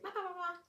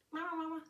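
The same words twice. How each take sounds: First: Put-on high-pitched baby-talk babble; playful babble. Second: High mimicking toy voice; toy echoing babble. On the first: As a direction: babble high into a talking toy. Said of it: "You're like". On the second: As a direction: parrot the babble back, high-pitched. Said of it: "goes back at you".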